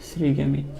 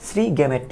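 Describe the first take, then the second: First: শ্রীগ্যামিট said with an ee sound, sri-ga-meet; gamit pronunciation. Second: শ্রীগ্যামেট said with an e sound, sri-ga-met; gamet pronunciation. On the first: Teacher showing students the শ্রীগ্যামিট form, clear -mit ending. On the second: Teacher offering the alternative শ্রীগ্যামেট, clear -met ending. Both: Shown as a demonstration. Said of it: "আবার একটা উচ্চারণ আছে".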